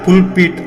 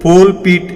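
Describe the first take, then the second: First: The first vowel sounds like oo. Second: The first vowel sounds like oh. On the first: The speaker calls it right. "దానిని పుల్పీట్ అనాలి" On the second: The speaker calls it wrong. "పోల్పీట్ ఏమిటి"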